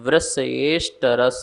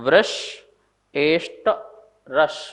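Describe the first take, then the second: First: The word parts are run together as one word. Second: The word parts are said separately, split apart.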